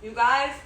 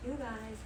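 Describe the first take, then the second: First: Loud emphatic you guys. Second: Soft quiet you guys. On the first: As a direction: call out you guys loudly. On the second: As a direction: say you guys softly, almost to yourself. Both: Shown as a demonstration. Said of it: "repeated call to viewers".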